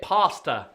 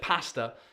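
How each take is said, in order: First: The word has an American pronunciation. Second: The word has a British pronunciation. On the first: "they pronounce it pasta" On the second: "instead of pasta"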